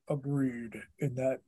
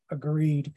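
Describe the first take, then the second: First: "agreed" said lower and much softer, a light cartoon Kingpin rumble. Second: Said in the usual way. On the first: Imitating the nineties cartoon Kingpin voice actor saying agreed, low and soft. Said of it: "I could hear the dude that did Kingpin's voice". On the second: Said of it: "He's like".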